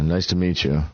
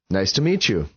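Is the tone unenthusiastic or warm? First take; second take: unenthusiastic; warm. First: It sounds hesitant and unenthusiastic. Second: It sounds warm and pleasant. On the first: The speaker is not really glad to meet the listener. The speaker calls it wrong. "the inflection could have been like" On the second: The speaker is glad to meet the listener. The speaker calls it right. "which feels pretty good"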